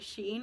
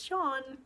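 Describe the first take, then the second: First: The vowel sounds like the 'ee' in 'see'. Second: The vowel does not sound like 'ee'. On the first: The speaker calls it wrong. "I always say Sheen" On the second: The speaker calls it right. "it's Sean, just with no W"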